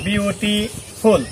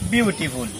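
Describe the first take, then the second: First: বিউটিফুল said slowly, broken into syllables bi-u-ti-ful; syllables split. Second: Said in the usual way. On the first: Shown as a demonstration. Teacher showing students how the word breaks, slow syllables. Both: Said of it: "এটা কি syllable ভাঙা যায় না?".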